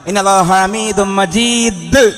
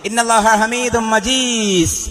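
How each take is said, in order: First: The final consonant is heavy, with a strong bounce. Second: The final consonant is soft, without a heavy bounce. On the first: The speaker calls it right. "കനത്തിൽ ഉച്ചരിക്കണം" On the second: The speaker calls it wrong. "എന്നോതാൻ പാടില്ല"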